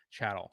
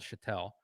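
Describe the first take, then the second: First: Said in the usual way. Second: Chattel as shattel, the French way; French-style shattel. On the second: Shown as a demonstration. Explaining the term, he first says chattel as shattel. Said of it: "Get my French accent in here".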